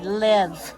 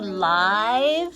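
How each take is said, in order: First: The vowel is short, as in 'give'. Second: The vowel is long, as in 'five'. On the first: The speaker calls it right. "change it back to a short I sound" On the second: The speaker calls it wrong. "make our I long"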